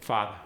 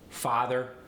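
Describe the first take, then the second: First: The r sound is dropped. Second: The r sound is pronounced.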